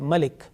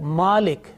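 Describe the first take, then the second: First: The first vowel is short. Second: The first vowel is long. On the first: "on mim, there is a fatha, ma" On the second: "which is a bit longer voice"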